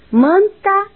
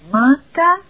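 First: It is spoken with the nose open, sounding normal. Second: It is spoken with the nose pinched, sounding muffled. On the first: "Com o nariz normal" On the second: "com o nariz tapado ... Ficou completamente fanha"

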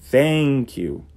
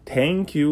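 First: Thank starts with a soft blown TH sound. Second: Thank starts with a hard T sound. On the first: The speaker calls it right. "tem que pôr a língua entre os dentes e soprar" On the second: The speaker calls it wrong. "você está falando tanque de guerra"

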